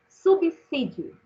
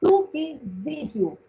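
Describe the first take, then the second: First: "subsídio" said slowly with a clear S sound, "sub-sí-dio"; correct pronunciation. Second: "subsídio" said slowly as "subzídio", with a Z sound; common wrong pronunciation. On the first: Teacher modelling the right form for students, slow crisp S. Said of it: "deve ser pronunciada assim". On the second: Teacher imitating the common mistake, slow "subzídio". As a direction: drag out "subsídio" with a buzzing Z, the way people say it wrongly. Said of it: "a gente ouve as pessoas falando". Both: Shown as a demonstration.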